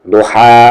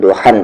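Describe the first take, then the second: First: The word ends on a long vowel. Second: The word ends with an 'n' sound. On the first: The reader stops after this word. "यहाँ पर रुकेंगे तो" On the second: The reader continues without stopping. "नहीं रुकेंगे तो"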